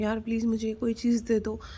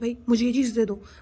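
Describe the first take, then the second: First: It is said in a pleading, requesting tone. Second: It is said in an arrogant, demanding tone.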